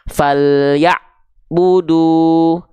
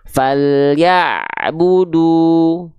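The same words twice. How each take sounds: First: A short silent break comes right before 'bu'. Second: The sound runs into 'bu' with no silent gap. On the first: The speaker calls it wrong. "dia terputus ainnya" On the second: The speaker calls it right. "dia ngalir sedikit suaranya"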